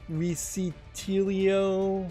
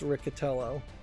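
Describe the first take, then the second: First: The ending sounds like 'tell-ee-oh'. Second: The ending sounds like 'tell-oh'. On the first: The speaker calls it wrong. "I've heard people pronounce it Riccitelio" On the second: The speaker calls it right. "the second I hear is just kind of silent"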